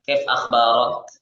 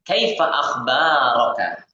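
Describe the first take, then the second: First: The final short vowels are dropped. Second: The final short vowels are pronounced. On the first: It is the conversational form. "kita sukunkan huruf terakhir" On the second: It is the full original form.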